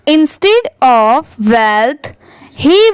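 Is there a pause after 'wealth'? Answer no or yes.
yes. There is a pause after 'wealth'. The speaker calls it right. "सिर्फ इतना पढ़ने के बाद रुकिए फिर इसको पढ़िए"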